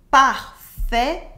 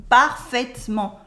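First: "parfaitement" in four loud syllables, "par-fai-te-ment"; wrong full schwa. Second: "parfaitement" as "par-fait-ment"; dropped French E. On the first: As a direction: sound the middle E in "parfaitement", syllable by syllable. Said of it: "We never say". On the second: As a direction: cut the middle E of "parfaitement". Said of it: "We cut the E in the middle". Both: Shown as a demonstration.

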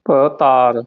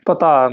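First: ਪਤਾਰ with first syllable detached from ਤਾਰ; split first syllable. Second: ਪਤਾਰ said as one joined word; run-together syllables. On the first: Teacher models it for learners, ਪਤਾਰ in two parts. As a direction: break after the first sound of ਪਤਾਰ. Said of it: "ਭੱਬੇ ਤੋਂ ਤੋੜ ਕੇ". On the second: Teacher shows what to avoid, ਪਤਾਰ run together. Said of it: "ਪਤਾਰ ਨਹੀਂ ਬੋਲਣਾ". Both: Shown as a demonstration.

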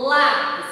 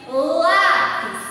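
First: Lápis said louder with lá punched; stress on LÁ. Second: Lápis with the first syllable lá punched loud; lápis, leaning hard on lá; stress on LÁ. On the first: Teacher repeating lápis for pupils, lá stressed. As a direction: land hard on lá in lápis. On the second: Teacher to third graders, stressing lá in lápis. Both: Shown as a demonstration. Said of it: "quando eu pronuncio essa palavra".

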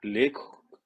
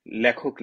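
First: লেখক with a careful closed "le", as "lekhok"; demanded correct pronunciation. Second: লেখক with an open first vowel, "lyakhok"; own criticised pronunciation. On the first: Retold or imitated. Mocking the corrector's demand, লেখক as a careful "lekhok". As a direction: say লেখক precisely, e not æ. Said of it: "বলতে হবে কেন আমাকে?". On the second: Shown as a demonstration. Speaker shows his criticised way, লেখক as "lyakhok". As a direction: say লেখক loosely as "lækhok". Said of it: "আমার উচ্চারণে ভুল ধরেছে".

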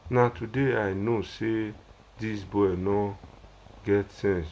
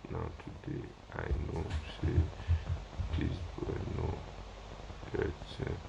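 First: Said in the usual way. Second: Muttered unvoiced read of a comment; reading a viewer's comment to himself, whispered; reading under breath. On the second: Real, not acted. Live host reading a comment to himself, whispered. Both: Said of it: "This one say".

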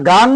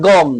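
First: গাং with a long open "aa"; open GAANG. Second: গং with a rounded "o"; rounded GONG. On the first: Teacher ruling out one reading, গাং with open "aa". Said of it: "না গাং". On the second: Teacher ruling out the other reading, গং with rounded "o". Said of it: "না গং". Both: Shown as a demonstration.

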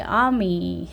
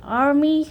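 First: "army" as "ah-mee", R nearly dropped; weak R. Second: "army" as "ar-mee", R sounded; pronounced R. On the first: Teacher allows weak R after vowel, R-less "army". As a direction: soften away the R in "army". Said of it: "R은 좀 약하게". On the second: Teacher offers the other accepted way, R pronounced. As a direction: curl the R in "army", said high. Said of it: "army 해도 되고". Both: Shown as a demonstration.

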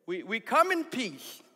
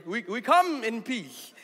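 First: Slow, careful mock address to the chief; a first, milder slow take of the missionary's line; slowed voice for foreigners. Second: Slow, hammed-up missionary voice for the chief; mock captain talking slowly to the village chief; exaggerated foreigner-talk voice. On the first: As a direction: spell it out slowly like talking to a non-English speaker. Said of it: "Why do you change your voice". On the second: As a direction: overdo the slow put-on voice you use with non-English speakers. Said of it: "Why do you change your voice when you speak to people who don't speak English".

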